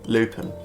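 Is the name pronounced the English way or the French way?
English. The name is said with a local English pronunciation. "as people would pronounce it from where I live"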